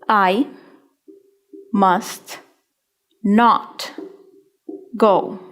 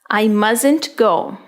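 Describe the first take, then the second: First: Must and not are said as two full words. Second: Must and not merge into one contracted word.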